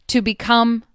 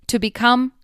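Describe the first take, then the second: The two takes are said the same way.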